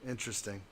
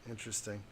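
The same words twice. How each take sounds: The two takes are said the same way.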